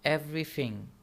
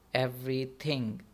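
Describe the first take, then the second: First: The th is said like an f or v sound. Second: The th is said as a normal th sound. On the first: "टी एच British accent में या तो एफ की sound देता है या वी की sound देता है" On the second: "neutral accent में जब आप इसको पढ़ते हैं"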